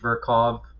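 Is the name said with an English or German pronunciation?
German. The name is said with a German pronunciation. This is how people in his hometown would say it. "in his hometown, it would probably be Virchow"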